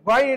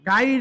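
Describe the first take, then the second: First: The first syllable is thick and heavy. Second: The first syllable is thin and light. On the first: The speaker calls it right. "মোটা করে পড়তে হয়" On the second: The speaker calls it wrong. "গাইর না হয়ে"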